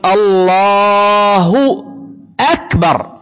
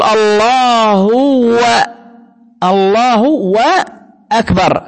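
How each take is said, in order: First: "الله" held very long ending in "اللهُ", then "أكبر" plain; correct with damma. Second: "الله وأكبر" very slow, a clear "و" before "أكبر"; wrong "وأكبر". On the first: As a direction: draw out "اللهُ" with a clear final u, then "أكبر". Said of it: "هي ضمة، تقول". (النطق الصحيح "اللهُ أكبر" بضمة ممدودة) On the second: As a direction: drag "الله" then slip a "و" into "وأكبر". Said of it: "لأنك بتقول". (نطق خاطئ "الله وأكبر" ببطء شديد) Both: Shown as a demonstration.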